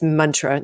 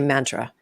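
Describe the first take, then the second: First: The word is pronounced the Sanskrit way. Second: The word is pronounced the common English way. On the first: This is the original form of the word. "I'm a, a s- a Sanskrit snob. It's it's mantra" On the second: This is how most people say the word. "most people will say mantra"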